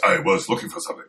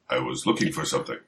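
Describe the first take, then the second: First: Higher, quicker badly dubbed movie voice; bad kung fu dub. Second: Said in the usual way. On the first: Shown as a demonstration. Co-host spoofing Danny's line as a badly edited kung fu movie, hammed-up dub. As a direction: hurry it like a badly dubbed martial-arts hero. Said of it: "in your worst edited kung fu movie voice". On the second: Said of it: "worst edited kung fu movie voice".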